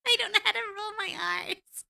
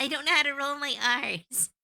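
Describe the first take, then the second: First: High, louder laughing complaint. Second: Said in the usual way. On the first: Real, not acted. Laughing at failing to roll her R's. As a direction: giggle it out, much higher. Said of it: "sounds like I'm growling". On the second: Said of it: "I was trying to".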